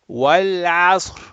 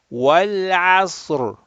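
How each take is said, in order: First: The final R is weak and unvoiced. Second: The final R is clearly voiced. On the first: The speaker calls it wrong. "a lot of people will say, ... Where's the Ra?" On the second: The speaker calls it right. "You gotta put voice"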